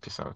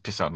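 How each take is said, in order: First: It is said in a relaxed, friendly tone. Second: It is said in a rude, dismissive tone. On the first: The speaker is just saying a friendly goodbye. "it's just cool" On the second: The speaker is telling someone to go away. "it's like I'm saying peace off"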